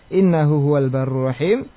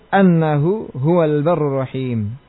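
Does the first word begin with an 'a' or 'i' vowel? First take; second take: i; a. First: The first word begins with an 'i' vowel. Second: The first word begins with an 'a' vowel. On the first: It starts a new explanatory clause. "Membaca dengan kasrah hamzah" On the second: It gives the reason, meaning because. "dengan menfathah hamzahnya"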